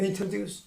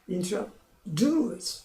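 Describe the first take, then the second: First: The stress falls on the first syllable. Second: The stress falls on a later syllable. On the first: The speaker calls it wrong. "한국 사람들 그래요. introduce 초음이 강해요. 안 됩니다" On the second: The speaker calls it right. "이렇게만 들립니다"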